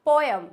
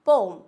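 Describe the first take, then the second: First: पोएम in two syllables, po-yem, high and loud; wrong pronunciation. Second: पोम in one long syllable, loud; correct pronunciation. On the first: Teacher showing the common mistake, loud two-syllable पोएम. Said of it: "पोएम बिल्कुल गलत word है". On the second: Teacher giving the corrected form, loud one-syllable पोम. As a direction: say पोम loudly as "pome". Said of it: "इसको बोलते हैं पोम". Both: Shown as a demonstration.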